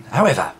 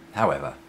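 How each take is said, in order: First: Emphatic however. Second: Said in the usual way. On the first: Shown as a demonstration. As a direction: announce "However" loudly. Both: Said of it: "repeats however".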